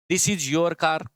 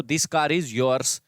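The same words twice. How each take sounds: First: Said in the usual way. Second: Slow contrast. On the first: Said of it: "car से पहले देखो". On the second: Shown as a demonstration. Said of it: "car पहले लिख दो".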